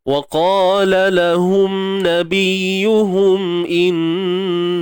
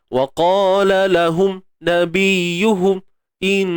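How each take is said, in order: First: The nasal hum flows lightly and evenly. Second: The nasal hum stops and starts abruptly. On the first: The speaker calls it right. "Dia benda tu secara santai je" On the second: The speaker calls it wrong. "Nampak tak bunyi terhenti-henti?"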